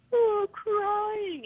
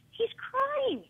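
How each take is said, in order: First: High, mock-crying taunt. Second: High-pitched retold appeal; pleading protest. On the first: Wrestler taunting a small boy for crying, mocking. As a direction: mimic a crybaby in a high whine. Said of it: "he starts mocking him for crying". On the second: Mother telling the wrestler her son is upset, pleading.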